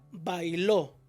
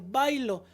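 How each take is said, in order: First: The stress falls on the final syllable. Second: The stress falls on the first syllable. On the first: Someone else danced in the past. "Aquí tenemos otra que es la palabra bailó" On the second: I dance. "Si yo le quito el acento ortográfico, va a decir bailo"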